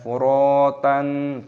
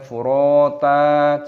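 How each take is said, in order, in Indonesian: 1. Kata ini berakhir dengan bunyi n. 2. Kata ini berakhir dengan vokal panjang, tidak ada n. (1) "jangan furotan" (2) "dibaca furota"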